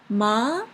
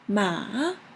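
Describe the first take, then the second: First: The pitch rises like a question. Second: The pitch dips low like a drawn-out well. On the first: "The second one is like a question. What? The rising question" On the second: "The third one is well, well"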